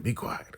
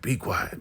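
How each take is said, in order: First: Whispered hush. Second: Said in the usual way. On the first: Retold or imitated. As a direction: whisper it so nobody hears. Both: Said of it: "Brian's like".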